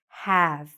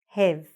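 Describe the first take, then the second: First: The vowel is an open 'a' sound. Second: The vowel is a closer 'e' sound. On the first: The speaker calls it right. "We want to open our mouths and say have" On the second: The speaker calls it wrong. "take this short A sound, a, a, and say e"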